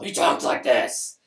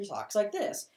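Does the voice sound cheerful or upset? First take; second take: upset; cheerful. First: It is said in an upset Joker voice. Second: It is said in a cheerful Joker voice.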